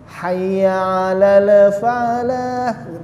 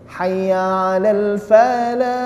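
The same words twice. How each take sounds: First: The l bounces with a short added vowel. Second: The l is held cleanly with no added vowel. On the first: The speaker calls it wrong. "ada beberapa sebagian orang mengucapkan" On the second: The speaker calls it right. "Harusnya tidak boleh"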